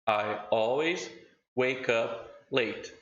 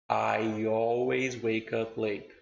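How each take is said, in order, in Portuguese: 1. As palavras são separadas com uma quebra glotal. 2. As palavras são conectadas suavemente com um glide de y. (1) "eu vou ler a primeira vez normal" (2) "e depois conectado"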